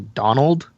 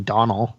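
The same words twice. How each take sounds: First: The final D sound is pronounced. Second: The final D sound is left off.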